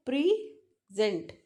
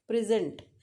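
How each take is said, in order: First: "प्रेजेंट" slowly split, weight on जेंट; slow demo stressing the end of "प्रेजेंट"; stress on second syllable. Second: "प्रेजेंट" stressed on प्रे, falling after; stress on first syllable. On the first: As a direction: say "प्रेजेंट" as pre-SENT, drawn out. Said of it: "यहाँ हमारा focus जेंट पे है". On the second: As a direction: say "प्रेजेंट" as the noun, PRE-sent. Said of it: "क्योंकि आपकी focus is on". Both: Shown as a demonstration.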